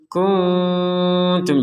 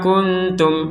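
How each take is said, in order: First: The n is hidden with a light nasal hum. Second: The n is said with no nasal hum. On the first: The speaker calls it right. "Jadi disamarkan dulu baru ketum" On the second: The speaker calls it wrong. "Itu kan enggak ada itu"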